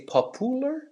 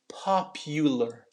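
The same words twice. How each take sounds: First: There is no y sound before the u. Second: A y sound is added before the u. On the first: The speaker calls it wrong. "I don't say popular" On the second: The speaker calls it right. "We'll add a little y sound"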